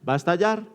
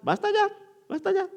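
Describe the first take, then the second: First: Said in the usual way. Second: "va a estallar" disparado muy agudo. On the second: Shown as a demonstration. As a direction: sube la voz al decir "estallar" como alarma. Advierte que la ira estalla. ("estallar" dicho muy agudo, en alarma)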